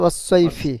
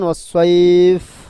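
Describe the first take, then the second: First: The word ends with a final 'i' vowel. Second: The word ends on the final consonant.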